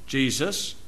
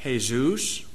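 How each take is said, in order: First: Said in the usual way. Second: Jesus said as hay-ZOOS, Spanish style; Jesus with a soft h and a long oo, stress on the end; Spanish Jesús. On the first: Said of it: "What do we say?". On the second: Shown as a demonstration. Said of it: "What do they say down south?".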